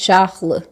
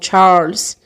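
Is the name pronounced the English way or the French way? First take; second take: French; English. First: The name has a French-style pronunciation. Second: The name has an English-style pronunciation. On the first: The speaker calls it right. "está sendo lido algo como mais Charles" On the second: The speaker calls it wrong. "como vocês estão mais habituados a ouvir da literatura inglesa"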